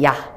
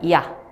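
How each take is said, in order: First: The syllable is said at normal speed. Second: The syllable is drawn out slowly, gliding.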